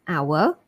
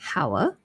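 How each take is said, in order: First: The word starts with a vowel, no H. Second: The word starts with an H sound. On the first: The speaker calls it right. "Silent H" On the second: The speaker calls it wrong. "so it's not hair or hour"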